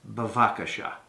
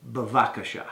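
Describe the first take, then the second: No difference in how they are said.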